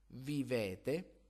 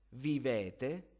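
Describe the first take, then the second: Both takes have the same delivery.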